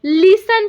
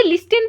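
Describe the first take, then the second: First: "लिसन" with a silent T; correct listen pronunciation. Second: "लिस्टन" with the T sounded; mispronounced listen. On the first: Teacher models the right reading for learners, "लिसन" without any T. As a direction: drop the T and say "लिसन". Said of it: "का pronunciation लिसन होता है". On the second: Teacher shows learners how not to read it, "लिस्टन" with a T. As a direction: say "लिस्टन", voicing the silent T. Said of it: "हम इसे लिस्टन नहीं पढ़ेंगे". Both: Shown as a demonstration.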